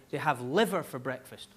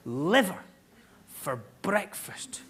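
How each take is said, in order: First: Said in the usual way. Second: LIVER set apart, then a slow, hushed BREAKFAST; incredulous repeat. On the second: Real, not acted. Comedian repeating Bavarian LIVER breakfast, slowly incredulous. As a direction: punch LIVER, pause, stretch BREAKFAST out in disbelief.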